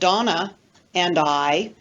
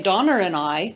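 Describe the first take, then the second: First: It is said without an r after Donna. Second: An r links Donna to and, New Zealand style.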